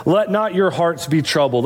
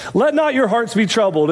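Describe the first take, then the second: First: Said in the usual way. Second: "not" lifted and leaned on, rest falling; stress on NOT. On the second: Shown as a demonstration. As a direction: land on "not" in "Let not your hearts". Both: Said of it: "Let's just kinda take this as it comes".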